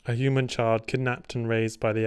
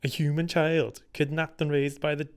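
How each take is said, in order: First: It is read in the speaker's normal accent. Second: It is read in an attempted Welsh accent.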